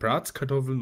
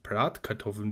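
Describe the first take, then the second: First: An extra s sound follows 'Brat'. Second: No s sound follows 'Brat'. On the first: This is the local regional form. "Man sagt eben Bratskartoffeln" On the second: This is the standard form. "und nicht Bratkartoffeln, wie es normal heißt"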